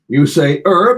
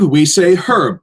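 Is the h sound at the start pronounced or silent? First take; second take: silent; pronounced. First: The word starts without an h sound. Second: The word starts with an h sound.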